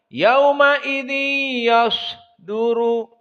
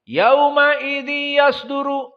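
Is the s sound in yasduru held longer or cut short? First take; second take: held longer; cut short. First: The s sound is held for a moment. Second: The s sound is cut short and rushed. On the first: The speaker calls it right. "Yang benar ... Ada tenggang waktu" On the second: The speaker calls it wrong. "jangan cepat. ... Ini salah"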